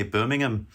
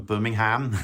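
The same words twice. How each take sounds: First: "Birmingham" with the final -ham shrunk to "um"; Birmingham with reduced ending. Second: "Birmingham" with the final -ham fully sounded; Birmingham with full ending. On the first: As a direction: say "Birmingham" as "BIR-ming-um", h dropped. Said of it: "you know, they say Birmingham". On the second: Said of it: "I just lied because". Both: Shown as a demonstration.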